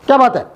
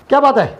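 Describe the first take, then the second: No difference in how they are said.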